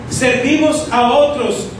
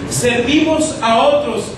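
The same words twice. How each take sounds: The two takes are said the same way.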